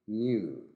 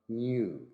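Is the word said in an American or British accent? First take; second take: British; British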